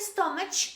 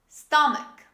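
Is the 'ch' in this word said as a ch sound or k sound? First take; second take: ch sound; k sound. First: The middle is said with a ch sound. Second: The middle is said with a k sound. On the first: The speaker calls it wrong. "Don't say stomach. This is not stomach" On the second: The speaker calls it right. "This is stomach"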